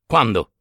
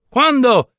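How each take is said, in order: First: Said in the usual way. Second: "Quando?" molto più acuto e forte, incalzante; quando gridato. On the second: Acted. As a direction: sbottare "Quando?" ad alta voce. Ripete la domanda alzando la voce. (il viaggiatore grasso incalza il padre: "Quando?" gridato)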